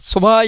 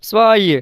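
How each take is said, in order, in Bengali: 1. v ধ্বনিটি পুরোপুরি ও শক্তভাবে উচ্চারিত হয়। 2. v ধ্বনিটি নরম, প্রায় শোনাই যায় না। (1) "এভাবে বলা যাবে না" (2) "ভের উচ্চারণটা সফট হবে"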